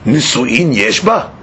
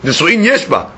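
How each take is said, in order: First: It is said as a rhetorical question. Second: It is said as a plain statement.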